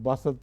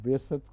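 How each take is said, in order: First: The first vowel is an 'a' sound. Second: The first vowel is a short 'i' sound. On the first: The speaker calls it wrong. "बेसत को बासत पढ़ दिया था" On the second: The speaker calls it right. "बेसत में बे के नीचे ज़ेर है"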